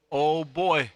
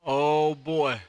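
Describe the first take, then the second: No difference in how they are said.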